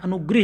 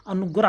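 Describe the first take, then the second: First: अनुग्रह said "anugrih", with i in the last syllable; wrong vowel. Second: अनुग्रह said "anugrah", with a in the last syllable; correct vowel. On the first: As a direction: put a short i into अनुग्रह. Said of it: "शब्द गलत है". (अनुग्रह को अनुग्रिह जैसा) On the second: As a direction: end अनुग्रह on "grah". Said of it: "सही है". (अनुग्रह में ग्र के साथ अ) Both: Shown as a demonstration.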